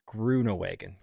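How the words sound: The name is pronounced with English sounds. "the English-sized version is Groenewegen"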